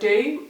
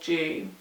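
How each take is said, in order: First: It begins with a plain D sound. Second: It begins with a J sound. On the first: "should I say do"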